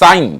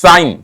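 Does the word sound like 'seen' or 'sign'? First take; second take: sign; sign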